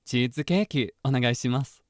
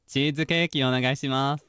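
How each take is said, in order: First: Slightly brighter anime-character read; lightly voiced anime character ordering cheesecake; neutral seiyuu voicing. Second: Said in the usual way. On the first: Shown as a demonstration. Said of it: "it would be more like". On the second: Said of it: "That's how I would say it".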